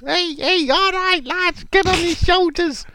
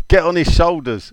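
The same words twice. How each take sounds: First: Very high, squeaky mock coach; Kevin Nolan. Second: A hint of a manager giving orders, higher; lightly voiced touchline instruction; manager's order. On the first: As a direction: squeal the order along to the lads. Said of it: "Kevin Nolan at the sideline". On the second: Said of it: "Tell the new defender".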